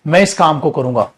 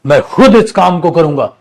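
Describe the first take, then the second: First: Said in the usual way. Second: खुद punched, louder, rest of the line plain; stress on खुद. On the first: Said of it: "जैसे". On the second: Shown as a demonstration. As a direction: lean hard on the word खुद to show you mean yourself. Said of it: "जोर लगा के बोलना".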